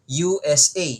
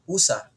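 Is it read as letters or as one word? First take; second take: letters; one word. First: Each letter is said separately. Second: The letters are blended into one word. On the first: The speaker calls it right. "Babasahin mo siya through initialism" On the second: The speaker calls it wrong. "Hindi mo siya babasahin tulad ng acronym"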